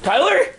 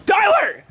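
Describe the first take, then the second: First: Tyler rising sharply at the end; questioning call. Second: Tyler shouted, falling at the end; angry call. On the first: Vlogger calls for Tyler, questioning call. Calling Tyler after the crash. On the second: Vlogger confronts Tyler, angry falling shout. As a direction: yell TYLER as an angry demand. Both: Real, not acted.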